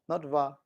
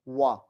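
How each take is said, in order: First: It starts with a lip-teeth v sound. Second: It starts with a rounded-lips w sound. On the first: The speaker calls it wrong. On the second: The speaker calls it right. "How about W?"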